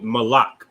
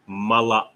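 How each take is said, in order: First: Malak as ma-LAK, the word for king; two-syllable pronunciation. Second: Malak as ma-la-AK, the word for messenger; three-syllable pronunciation. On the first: Teacher warning of a confusable word, Malak in two syllables. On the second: Teacher contrasting it with king, Malak in three syllables. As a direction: split Malak before a final ak. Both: Shown as a demonstration. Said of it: "Not to be confused with".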